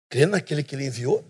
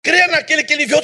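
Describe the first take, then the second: First: "Crê naquele que ele enviou?" dropped lower and quieter, rising at the end as a real question; asked as a question. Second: Said in the usual way. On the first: Shown as a demonstration. Preacher showing the church how to question the verse, rising tune. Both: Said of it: "você tem que fazer pergunta pro texto".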